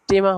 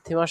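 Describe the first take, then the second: First: The word begins with a plain, unaspirated t sound. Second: The word begins with a breathy, aspirated t sound. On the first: It is the German form of the word. The speaker calls it right. "টেমা হলো যে ডয়েশ শব্দ" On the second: It is the English-style form of the word. The speaker calls it wrong. "থেমা শব্দটা সাধারণত ইংরেজি শব্দ"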